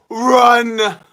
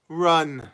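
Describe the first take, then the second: First: Loud, high, drawn-out yell; shouted command. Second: Said in the usual way. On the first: Pretend. Streamer calls out to his chat, high shout. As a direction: yell it out like a warning.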